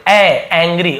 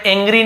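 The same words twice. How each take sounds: First: एंग्री opened on a wide AE; एंग्री with the vowel of cat first; correct pronunciation. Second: एंग्री opened on a closed AY; एंग्री with ए as first vowel; wrong pronunciation. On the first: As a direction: say एंग्री as ANG-ree. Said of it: "तो हम इसे एंग्री पढ़ते". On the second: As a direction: misread angry as ENG-ree. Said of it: "इसे मैं एंग्री नहीं बोल रहा". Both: Shown as a demonstration.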